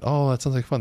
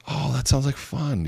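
First: "Oh, that sounds like fun" with a lifted, pleased "Oh"; validating warmly. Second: Slow, interested "Oh, that sounds like fun"; a touch of delight at "fun"; validating warmly. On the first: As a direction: show real interest. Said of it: "That's a validation". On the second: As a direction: sound genuinely pleased for them. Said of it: "You see that?". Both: Shown as a demonstration.

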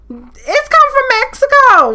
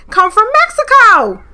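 First: Much higher, louder and slow, drawn out; it's come from Mexico, high and amazed; incredulous repeat. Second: Loud, high insistence on Mexico; Mexico punched loud and high; emphatic exclamation. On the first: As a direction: stretch it out in disbelief. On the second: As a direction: hit it hard: come from Mexico. Insisting root comes from Mexico. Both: Real, not acted.

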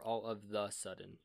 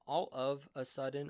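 First: "the" set apart in "all of the sudden"; stress on THE. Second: "a" set apart in "all of a sudden"; stress on A. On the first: Asking friends which phrase is right, stress on "the". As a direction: lay out "the" as the other option. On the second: Asking friends which phrase is right, stress on "a". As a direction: lay out "a" as the first option. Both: Shown as a demonstration. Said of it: "answer me this question".

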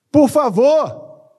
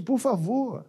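First: Much higher, louder and drawn out slowly; long loud high "Por favor", each syllable stretched; pleading cry. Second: Said in the usual way. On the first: Acted. Pleads with the congregation.

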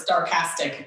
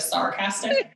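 First: "sarcastic" said as "star-castic"; mispronounced as STARcastic. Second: Said in the usual way. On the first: Retold or imitated. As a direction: put a T in "sarcastic", starting it like "star". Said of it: "favorite one is sarcastic instead of sarcastic". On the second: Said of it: "instead of sarcastic".

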